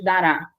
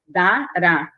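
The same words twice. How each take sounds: First: Said in the usual way. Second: "Dará" split into two parts, Da-rá; syllable by syllable. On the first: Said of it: "Como é que você faz a separação". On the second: Shown as a demonstration. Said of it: "faz a separação de dará".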